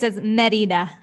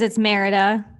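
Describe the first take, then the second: First: It is said the way Spanish speakers say it. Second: It is said the way English speakers say it.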